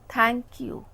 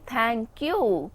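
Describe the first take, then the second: First: The stress falls on the word thank. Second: The stress falls on the word you. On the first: "I'm putting emphasis on thank" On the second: "I am putting emphasis on you"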